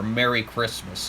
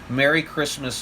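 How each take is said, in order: First: It is said in a pointed, loaded tone. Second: It is said in a warm, friendly tone. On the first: It is meant to provoke people who dislike it. "a message" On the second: It is a sincere holiday greeting. "a friendly greeting"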